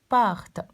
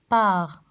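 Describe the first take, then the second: First: The word ends with an audible t sound. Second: The word ends without any t sound. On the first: The speaker calls it wrong. "ما قلتش part" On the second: The speaker calls it right. "Laissons l'être pas prononcé"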